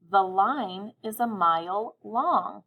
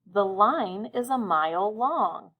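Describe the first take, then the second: First: Even slower, every word clear; slow dictation. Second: Slow, clear dictation of the sentence. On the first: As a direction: say it slowly once more for listening. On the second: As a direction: read it slowly so children can write. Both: Shown as a demonstration. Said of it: "I'll say it again, listening carefully".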